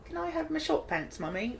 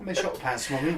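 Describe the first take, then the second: First: Put-on high, soft British child; British child accent. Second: Raised mock-British child; echoed British accent. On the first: Shown as a demonstration. Host showing off their only accent, put-on British child. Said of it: "That's my only accent". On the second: Guest echoing the host's accent, lightly mock British.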